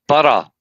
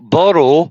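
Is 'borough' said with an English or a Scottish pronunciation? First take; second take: Scottish; English. First: It is said with a Scottish pronunciation. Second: It is said with an English pronunciation. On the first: The speaker calls it right. "Borough is Scotland" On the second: The speaker calls it wrong. "borough is England"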